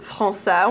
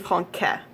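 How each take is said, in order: First: The c is pronounced as an s sound. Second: The c is pronounced as a k sound. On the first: The speaker calls it right. "so it turns it into an S sound" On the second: The speaker calls it wrong. "If you forgot that cedilla ... which is gibberish, don't say that"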